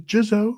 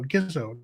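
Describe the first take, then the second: First: The name begins with a soft J sound. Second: The name begins with a hard G sound. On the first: The speaker calls it wrong. "No, Gizzo, not Jizzo" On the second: The speaker calls it right. "Gizzo, not Jizzo"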